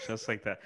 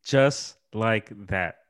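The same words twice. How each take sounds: First: Just like that said much softer, almost to himself; soft aside. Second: Echoing Just like that slowly, each word drawn out; slow savoring echo. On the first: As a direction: let it drop quietly. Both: Shown as a demonstration.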